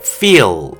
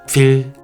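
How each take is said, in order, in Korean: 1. 원어민 영어 화자처럼 발음합니다. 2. 한국어 음절 '필'처럼 발음합니다. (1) "feel 이렇게 말을 해야 되는데" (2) "대부분이 이렇게 소리를 내실 거예요"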